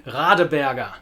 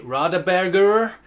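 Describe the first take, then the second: First: "Radeberger" ending in an open vowel, no final R; non-rhotic ending. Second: "Radeberger" with a hard English R sounded at the end; rhotic ending. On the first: Teacher modelling German pronunciation, vowel-like ending. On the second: Teacher showing what not to say, rhotic final R. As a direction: curl a strong R onto the end of "Radeberger". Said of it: "don't say". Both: Shown as a demonstration.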